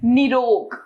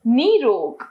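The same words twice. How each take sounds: First: Short first vowel in निरोग, "ni-rog"; mispronounced निरोग. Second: Long first vowel in निरोग, "nee-rog"; correct नीरोग. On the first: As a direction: keep the नि of निरोग brief. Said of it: "अशुद्ध". (निरोग का अशुद्ध उच्चारण, छोटी इ से) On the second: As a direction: stretch the नि of निरोग into नी. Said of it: "इसका शुद्ध है". (निरोग को शुद्ध रूप "नीरोग" बोलें) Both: Shown as a demonstration.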